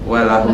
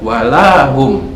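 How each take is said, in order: First: The vowel after the L is kept short. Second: The vowel after the L is drawn out long. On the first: It means and for them. "tanpa mat walahum saja" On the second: It turns into a negation: and not. "Kalau lamnya kita panjangkan"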